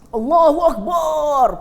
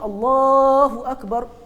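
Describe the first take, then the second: First: The final syllable bar is drawn out long. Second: No vowel is drawn out long. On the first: It likens God to a drum. The speaker calls it wrong. "panjang bar, nampak macam bersemangat padahal salah" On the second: God is the greatest. The speaker calls it right. "patutnya Allahu Akbar. Akbar tak boleh panjang"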